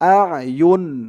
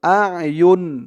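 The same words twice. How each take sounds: First: The word ends cleanly on an n sound. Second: The word ends cleanly on an n sound.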